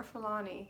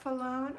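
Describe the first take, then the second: First: "Falani" ending in an EE sound; "Falani" with a final ee; name said Falani. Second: "Falone" ending in a long OHN; "Falone" with no final ee sound; name said Falone. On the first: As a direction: say "Falani" in three syllables, closing on nee. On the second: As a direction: say "Falone" in two syllables, rhyming with alone. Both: Shown as a demonstration. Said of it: "Is that Falone or Falani?".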